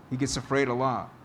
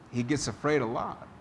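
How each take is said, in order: Both takes have the same delivery.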